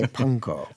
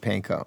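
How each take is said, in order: First: It is said with a Japanese-style pronunciation. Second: It is said with a Midwestern American pronunciation. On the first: This is how people in the Midwest do not say it. "We don't say" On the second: This is how people in the Midwest say it. "in the Midwest, that's what we say"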